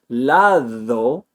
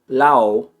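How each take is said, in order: First: The d is a full th-like sound. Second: The d sound is left out entirely. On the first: "instead of saying lado" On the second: "I'm not just eliminating the D, that would be L A O"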